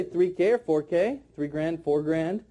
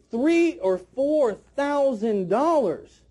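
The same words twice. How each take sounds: First: Lower, throwaway "three K or four K, three grand, four grand"; small-sounding price. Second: THREE OR FOUR THOUSAND DOLLARS slow, each word stressed; big-sounding price. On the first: Trainer showing the wrong wording, low and offhand. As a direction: rattle off the short forms without weight. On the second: Trainer showing the first drop, slow and big. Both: Shown as a demonstration. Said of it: "but that doesn't sound big".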